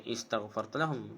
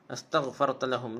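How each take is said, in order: First: The first word begins with an 'i' vowel. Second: The first word begins with an 'a' vowel. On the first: The speaker calls it wrong. "Dia tak boleh baca istaghfarta lahum" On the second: The speaker calls it right. "Jadi hak ni pun dibaca a"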